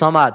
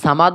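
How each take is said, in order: First: The first vowel is kept short. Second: The first vowel is drawn out long. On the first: The speaker calls it right. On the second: The speaker calls it wrong. "সামাদ বললে হবে না"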